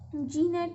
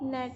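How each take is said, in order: First: A g sound is heard at the start. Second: No g sound is heard at the start. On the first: The speaker calls it wrong. "जी नेट नहीं बोलेंगे" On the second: The speaker calls it right. "नेट बोलते हैं"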